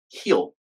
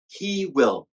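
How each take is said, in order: First: The words merge into one short syllable. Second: Both words are said fully and separately. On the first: "and then the contraction" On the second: "I'll say the full version first"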